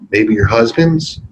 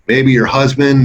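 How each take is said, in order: First: The voice is timid, hesitant and mousy. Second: The voice is firm, stern and matter-of-fact. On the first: The caller is unsure of getting an answer. The speaker calls it wrong. "You can't sound mousy" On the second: The caller expects an answer. The speaker calls it right. "say it sternly and be matter of fact about it"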